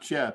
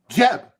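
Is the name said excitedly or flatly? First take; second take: flatly; excitedly. First: The name is said flatly, without excitement. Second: The name is said excitedly, with high energy. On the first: The speaker calls it wrong. "It's not Jeb" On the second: The speaker calls it right. "there was an exclamation mark. ... says excitement"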